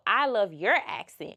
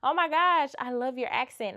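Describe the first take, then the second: First: Put-on "your" pushed hard in "I love your accent"; stress on your. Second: High, excited mock British gush; gushing British fan. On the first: She answers the London local, stressing "your". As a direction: turn it back with weight on "your". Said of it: "Like, no". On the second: London local gushing over her accent in a light British voice. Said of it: "And it's like".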